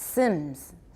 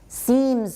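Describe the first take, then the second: First: The vowel is a short i sound. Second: The vowel is a long ee sound. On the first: The speaker calls it wrong. "gets pronounced sims" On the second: The speaker calls it right. "Seems often gets pronounced sims"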